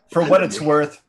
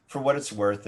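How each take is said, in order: First: Suddenly loud, higher. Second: Said in the usual way. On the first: Real, not acted. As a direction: blurt it out loudly over others.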